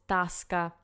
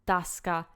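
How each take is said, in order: The two takes are said the same way.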